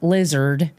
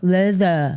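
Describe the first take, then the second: First: The word is said clearly and normally. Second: The word is slurred, as if the mouth is numb. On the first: The speaker calls it right. "she learned lizard" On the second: The speaker calls it wrong. "she was going leather. Like like she got a shot from the dentist"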